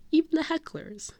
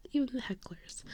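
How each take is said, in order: First: High, sing-song concession; magnanimous aside. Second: Soft, confiding whisper; whispered aside. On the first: Fan including those who heckled, high sweet aside. First take, voiced. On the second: Fan repeating it about those who heckled, soft whisper. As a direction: whisper it as an afterthought. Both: Real, not acted.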